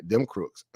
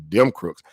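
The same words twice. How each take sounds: First: Said in the usual way. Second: Them crooks repeated louder, punched on crooks; stress on crooks. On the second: Shown as a demonstration. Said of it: "Like, them crooks".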